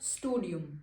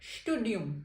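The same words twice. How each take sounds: First: The word begins with a plain 's' sound. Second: The word begins with an 'sh' sound. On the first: The speaker calls it wrong. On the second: The speaker calls it right.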